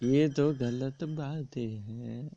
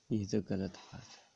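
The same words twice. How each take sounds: First: Slow, with a rise on ये; ये तो गलत बात है said slowly, the ये rising; slow emphatic repeat. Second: Said in the usual way. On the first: Shown as a demonstration. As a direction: draw out ये तो गलत बात है and lift ये.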